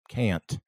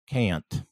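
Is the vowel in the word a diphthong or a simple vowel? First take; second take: diphthong; diphthong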